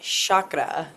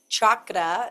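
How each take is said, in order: First: The word begins with a softer non-'ch' sound. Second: The word begins with a hard 'ch' sound. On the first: The speaker calls it wrong. "not chakra" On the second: The speaker calls it right. "it's chakra, Ch, ch, ch"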